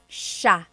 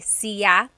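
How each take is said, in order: First: The word is said as one syllable, sha. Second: The word is said as two syllables, si-ya. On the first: This is the usual central Luzon pronunciation. "it's sha" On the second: This is how some other regions pronounce it. "There are some regions in the Philippines, I believe, that say siya"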